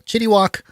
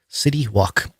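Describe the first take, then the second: First: The first word begins with a ch sound. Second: The first word begins with a plain s sound.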